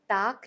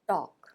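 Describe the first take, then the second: First: The vowel is an open unrounded ah sound. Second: The vowel is a rounded aw sound. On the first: The speaker calls it wrong. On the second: The speaker calls it right.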